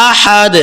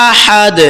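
No difference in how they are said.

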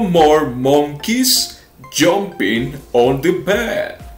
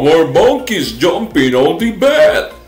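First: The words are said at a slow pace. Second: The words are said at a quick pace.

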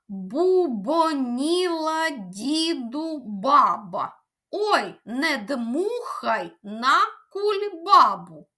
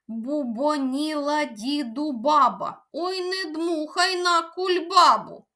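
First: It is said at a moderate pace. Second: It is said at a fast pace.

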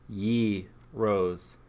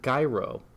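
First: The word begins with a 'yee' sound. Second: The word does not begin with a 'y' sound. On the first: The speaker calls it right. "Euro pronunciation. Ye rose" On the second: The speaker calls it wrong. "It's not gyro"

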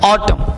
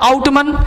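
First: The word ends on m with no n. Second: The word ends with an audible n sound. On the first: The speaker calls it right. "तो इस तरह से पढ़ना है, और एन चुप रहता है" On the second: The speaker calls it wrong. "तो आउटमन नहीं पढ़ते"

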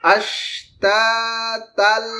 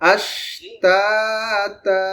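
First: The word ends in an l sound. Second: The word ends in a long drawn-out vowel. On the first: The reciter joins this word to the next. "মিলায় পড়লে হবে এখানে তা যে ছিল এটা হয়ে যাবে তাল" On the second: The reciter stops after this word. "এখানে থেমে গেলে তাটা একালিফ লম্বা হবে"

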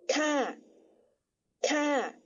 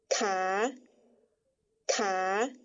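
First: The syllable is said on a falling tone. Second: The syllable is said on a rising tone. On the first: "但使它念第三调，念作咔咔" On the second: "第五声调呢……在不标调号的情况下念作卡卡"

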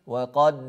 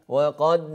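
The two takes are said the same way.

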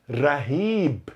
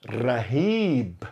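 First: The R is a light single tap. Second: The same.

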